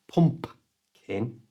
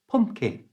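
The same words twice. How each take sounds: First: The second P sound is clearly pronounced. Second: The second P sound is left out. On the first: The speaker calls it wrong. "It's not pumpkin" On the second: The speaker calls it right. "the easiest and most natural way is to not pronounce the second P"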